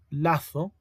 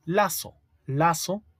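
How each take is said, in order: First: "lazo" with a lisped Z, th sound, latho. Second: Lazo said with a clear S sound, laso; teacher saying "lazo" with a hissed S, not a lisped Z. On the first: Teacher to students showing the Z spelling, lisped th. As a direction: say "lazo" with the tongue between the teeth, latho. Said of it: "con Z". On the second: Teacher to students showing the S spelling, S sound. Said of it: "Con S". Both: Shown as a demonstration.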